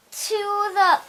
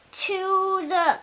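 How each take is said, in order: Both takes have the same delivery.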